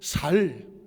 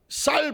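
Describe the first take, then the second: First: The word starts with a plain s sound. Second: The word starts with a tense s sound. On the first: "쌍시옷 안 됩니다, 경상도 사람들은" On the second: "쌀 발음 돼, 안 돼?"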